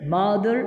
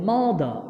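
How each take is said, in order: First: It ends with a clearly heard r sound. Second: It ends in a vowel with no r sound. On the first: The speaker calls it wrong. "মাদার না বলে" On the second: The speaker calls it right. "শব্দ শেষে আর উচ্চারণ হবে না"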